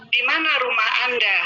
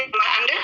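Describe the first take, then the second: First: "Di mana rumah Anda?" asked with a falling tune on "mana"; question with question word. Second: "Rumah Anda?" with the pitch rising on "Anda"; question by intonation only. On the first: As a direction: ask it plainly, letting "mana" carry the question. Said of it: "itu ada kata tanyanya". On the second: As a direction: lift "Anda" at the end to make it a question. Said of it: "kalau dengan intonasi saja". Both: Shown as a demonstration.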